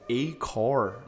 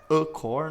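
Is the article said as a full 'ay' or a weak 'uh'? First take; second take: full ay; weak uh. First: The article is a full, stressed 'ay' sound. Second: The article is a weak, unstressed 'uh' sound. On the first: The speaker is emphasizing or specifying the noun. "vai estar tá dando um ênfase" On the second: No emphasis is placed on the noun. "não vai estar tá dando nenhuma"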